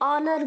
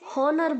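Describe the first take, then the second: First: The word begins directly with a vowel sound. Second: The word begins with an audible H sound. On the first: The speaker calls it right. "H silent है तो हम इसे ऑनर बोलेंगे" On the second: The speaker calls it wrong. "बहुत सारे बच्चे यहाँ पर गलत प्रोनाउंस करते हैं, इसे हॉनर बोलते हैं"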